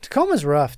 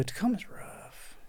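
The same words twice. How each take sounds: First: Said in the usual way. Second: Whisper. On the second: Shown as a demonstration. Repeated as whispered aside.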